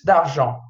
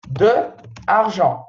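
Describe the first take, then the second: First: The two vowels are merged together. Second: The two vowels are kept separate. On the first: The speaker calls it right. "Apóstrofe" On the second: The speaker calls it wrong. "Esse aqui fica assim, ó. De argent"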